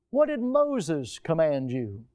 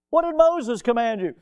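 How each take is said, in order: First: Slow reading of Scripture. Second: Higher and louder, stress on Moses; repeated with emphasis. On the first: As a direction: savour each word of the verse. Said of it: "Mark says". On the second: Preacher repeating Jesus's question to the church, forceful. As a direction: drive the question home. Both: Shown as a demonstration.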